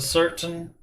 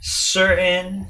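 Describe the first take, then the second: First: The T sound in the middle is clearly pronounced. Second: The T sound in the middle is left out. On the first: "instead of certain" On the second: "they leave out the T when they talk, like they say certain"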